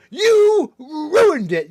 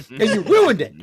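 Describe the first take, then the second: First: Very loud, high, slow wail; drawn-out mock outrage. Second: High, loud hammed-up blame; mock outraged accusation. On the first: Mocking officer over ruined plans, drawn-out mock outrage. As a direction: stretch the accusation hugely, hammed up. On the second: Mocking officer over ruined plans, hammed-up outrage. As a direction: blame them at full volume, mock fury.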